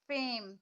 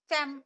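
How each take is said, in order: First: The vowel is drawn out long. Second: The vowel is clipped short. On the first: "इसमें ये है कि थोड़ा खींच के पढ़ रहे हैं हम" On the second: "ऐसे नहीं पढ़ सकते ना"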